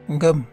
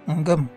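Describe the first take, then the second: No difference in how they are said.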